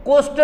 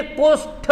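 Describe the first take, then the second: First: कुष्ठ ending in unaspirated T, "kusht"; wrong form. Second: कुष्ठ slowly with aspirated TH, "kush-THa"; correct form. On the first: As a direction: cite कुष्ठ as the faulty "kusht". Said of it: "कुष्ठ नहीं". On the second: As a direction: release कुष्ठ on a breathed TH. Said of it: "कुष्ठ होता है". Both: Shown as a demonstration.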